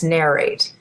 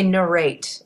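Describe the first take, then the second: First: The word is said with an American pronunciation. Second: The word is said with a non-American pronunciation. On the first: The speaker calls it right. "when you do the American accent, It's narrate" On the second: The speaker calls it wrong. "you can't say narrate"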